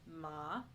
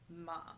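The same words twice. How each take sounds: First: The pitch dips low then rises. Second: The pitch falls sharply from high. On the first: It means horse. "which is horse" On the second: It means scold. "which is scold"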